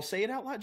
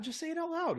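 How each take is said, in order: First: Said in the usual way. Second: "Just say it out loud" pushed up high; high coaxing insistence; urging, higher. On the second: Real, not acted. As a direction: egg them on with a high insistent push.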